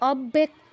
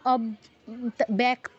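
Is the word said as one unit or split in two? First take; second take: one unit; split. First: The word flows as one unbroken unit. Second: The word breaks in two with a doubled b. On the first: The speaker calls it right. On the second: The speaker calls it wrong.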